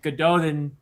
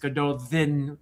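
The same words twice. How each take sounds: First: The name is said with an anglicized pronunciation. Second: The name is said with a Welsh pronunciation. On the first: This is how the books say it. "They pronounce it" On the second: This is the original pronunciation. "really in Welsh, which is where it comes from, it's"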